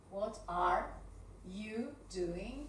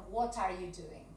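First: "What are... you doing" with pauses; measured dictation with gaps between words; word-by-word question. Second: Said in the usual way. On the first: Shown as a demonstration. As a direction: break the question into separate pieces. Same question broken down word by word.

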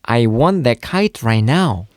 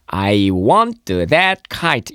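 First: "want that" run together with a weak t; fluent connected "I want that kite right now"; natural linking. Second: "want" with an added "t-uh", slowly; slow learner reading, full t in "want"; over-separated. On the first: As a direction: say "right now" joined, t unreleased. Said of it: "영어도 그렇게 해야지 돼요". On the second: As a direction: say "I, want-uh, that, kite" word by word. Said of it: "이렇게 하지 말고요". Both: Shown as a demonstration.

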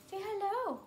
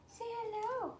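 First: High coaxing "Say hello."; sing-song, higher "Say hello." to the dog. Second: Higher and softer crooned "Say hello."; hushed sing-song "Say hello." to the dog. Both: Real, not acted. Coaxing dog to greet viewers.

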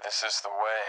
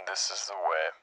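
First: Mandalorian voice. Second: Soft filtered helmet voice; quiet masked bounty hunter; Mandalorian voice. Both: Pretend. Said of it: "the Mandalorian voice".

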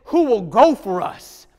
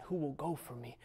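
First: Slow, loud, booming question; voice of God. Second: Hushed question. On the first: Preacher voicing God asking Isaiah, a slow booming call. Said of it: "and he says". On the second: Preacher retelling God's question to Isaiah, hushed and soft. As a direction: ask it almost under your breath. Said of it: "he heard the question". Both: Retold or imitated.

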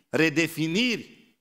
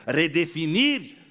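No difference in how they are said.

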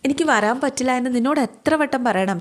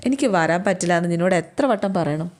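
First: Higher, fed-up "എത്ര വട്ടം പറയണം" with weight on നിന്നോട്; a mild annoyed brother repeating himself; exasperated repeat. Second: Said in the usual way. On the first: Acted. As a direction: say it again, lifted and impatient. Brother refuses sister's plea.

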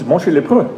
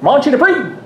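First: "Monchy Lepreux" said the French way, "mon-SHEE luh-PRUH"; French pronunciation. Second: High Newfoundland mangling of French, "Monchy Dupree" as "MON-chee duh-PREE"; Newfoundland accent. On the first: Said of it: "who both speak French". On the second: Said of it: "I can't do a Newfoundland accent". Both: Retold or imitated.

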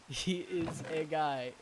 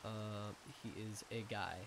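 First: Slow, laughing repeat; chuckling through the words. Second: Said in the usual way. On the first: Real, not acted. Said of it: "repeats the phrase laughing". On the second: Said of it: "repeats the phrase".

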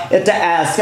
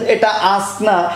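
First: অ্যাস্ক with a front a; অ্যাস্ক said the other way; British ask. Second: আস্ক with a flat a, slow; আস্ক in the American way, slowly; American ask. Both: Shown as a demonstration. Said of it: "আবার তিনি বলছেন".

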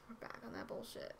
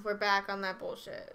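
First: Much softer, near-whispered echo; hushed repeat. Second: Said in the usual way. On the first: Real, not acted. Streamer back on stream, repeating it in a hush. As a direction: say it under your breath. Repeats the announcement under breath.

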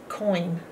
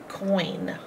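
First: Coin whispered without voice; breathy unvoiced Coin; whispered word. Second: Said in the usual way. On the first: Shown as a demonstration. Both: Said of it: "Our next word is coin".

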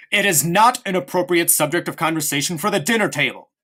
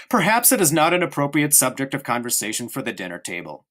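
First: Stern repeat that cuts him off; a hard, final warning; sharply. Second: Light, easygoing tone, closing the subject; breezy and polite at the table; cheerfully. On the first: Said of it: "repeated Father sharply". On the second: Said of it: "said Father cheerfully". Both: A narrator's reading.

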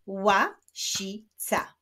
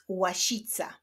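First: "Łasica" slowly as ła, si, ca; split into syllables. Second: Said in the usual way. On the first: Shown as a demonstration. Teacher clapping syllables of łasica, slowly split. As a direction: clap out "Łasica" in three separate beats. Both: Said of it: "Wyklaszczmy sylaby w tych wyrazach".

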